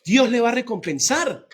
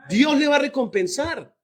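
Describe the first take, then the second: First: Said in the usual way. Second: "va" lifted higher than the rest, the whole line pitched up; "Dios le va a recompensar" rising to a higher, fervent pitch; emphatic repeat. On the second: Shown as a demonstration. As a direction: repeat it, pushing harder on "va".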